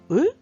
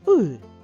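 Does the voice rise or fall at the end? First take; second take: rises; falls. First: The voice rises at the end like a question. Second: The voice falls at the end like a statement. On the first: It asks about something. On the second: It is a plain statement.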